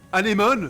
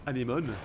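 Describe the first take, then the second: First: Anémone called out loud; excited naming. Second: Said in the usual way. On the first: Real, not acted. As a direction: shout Anémone with delight. Names the mount excitedly.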